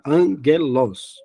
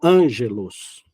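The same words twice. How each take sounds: First: The g is said hard, as in 'go'. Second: The g is said soft, like a 'j'. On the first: The speaker calls it right. "a gente tem que colocar o G U" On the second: The speaker calls it wrong. "e não"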